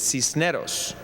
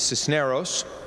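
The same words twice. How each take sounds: First: The name is said with a Spanish accent. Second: The name is said with an English accent.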